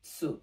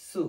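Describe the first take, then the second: First: সু started with a ts burst; stop, then release সু with ts; pressed "tsu". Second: সু said very lightly with plain s; thin "su". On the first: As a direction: say সু as a pressed "tsoo". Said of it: "গলার ভিতর থেকে বলার চেষ্টা করব". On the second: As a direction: say সু as a thin "soo". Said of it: "একবারই পাতলা করে". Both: Shown as a demonstration.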